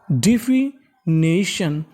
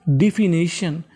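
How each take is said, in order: First: definition stretched slowly, part by part; teacher models definition slowly; slow syllable by syllable. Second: Said in the usual way. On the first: Shown as a demonstration. (धीरे-धीरे शब्द तोड़कर) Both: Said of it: "meaning मिलाते हैं".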